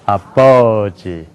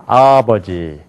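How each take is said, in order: Both takes have the same delivery.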